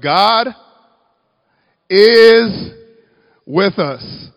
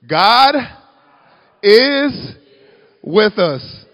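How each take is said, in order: First: It is said plainly, without extra force. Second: It is said loudly, with more force. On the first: The speaker calls it wrong. "Say that with me" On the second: The speaker calls it right. "say it with your chest a little bit better"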